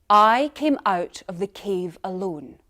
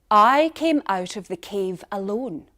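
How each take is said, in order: No difference in how they are said.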